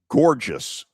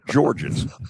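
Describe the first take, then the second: First: The name sounds like the word gorgeous. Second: The name sounds like Georges, not gorgeous. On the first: The speaker calls it wrong. "Not gorgeous" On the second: The speaker calls it right.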